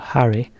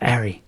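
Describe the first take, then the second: First: The word begins with a clear H sound. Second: The word begins without any H sound.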